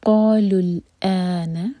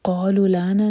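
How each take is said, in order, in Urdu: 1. ہمزہ میں واضح گلوٹل کٹ آف ہے۔ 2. ہمزہ گرا دیا جاتا ہے، تو یہ 'la' جیسا سنائی دیتا ہے۔ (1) "حمزہ کا مخرج کلیئر کٹ آف ساؤنڈ کے ساتھ" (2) "نہیں کہیں گے, پھر وہ لا ہو جائے گا"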